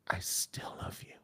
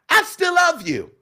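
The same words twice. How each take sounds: First: It is said in a breathy, intimate voice. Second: It is said in a bright, pingy voice.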